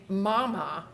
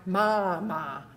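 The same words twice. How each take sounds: First: "mama" with the jaw held steady, lips doing the work; "mama" said slowly, jaw kept up. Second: "mama" with the jaw dropping wide on each syllable; slow, gaping "mama", jaw falling open. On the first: Therapist showing students the right "mama", jaw held steady. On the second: Therapist showing students the wrong "mama", jaw dropping wide. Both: Shown as a demonstration. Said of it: "I don't want mama".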